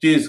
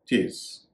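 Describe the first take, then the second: First: चेज with a z sound at the end, as "chez"; the common mistaken चेज, final z; wrong pronunciation. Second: चेस ending in a crisp s, as "chase"; the right way, चेस with final s; correct pronunciation. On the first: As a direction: say चेज ending in a buzzing z. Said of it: "इसका उच्चारण कई लोग गलती से". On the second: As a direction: say चेस with a clean s at the end. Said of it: "इसका उच्चारण चेस". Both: Shown as a demonstration.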